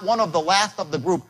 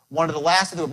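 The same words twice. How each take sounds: First: The words are said separately. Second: The words are run together as one.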